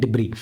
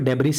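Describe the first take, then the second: First: It starts with 'dib' and has no final 's'. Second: It starts with 'deb' and ends with 's'. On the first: The speaker calls it right. "ऐसा हमारा silent हो जाता है, इसको पढ़ते हैं डिब्री" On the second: The speaker calls it wrong. "इसको डेब्रिस नहीं पढ़ते"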